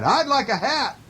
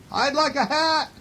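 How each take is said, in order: First: High storybook bear voice; calling bear. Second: Very high echo voice; moon's echo. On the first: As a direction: call the answer out in a high voice. Bear calls his answer out. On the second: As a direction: echo it back even higher in pitch. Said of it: "It's his voice echoing". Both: A narrator's reading.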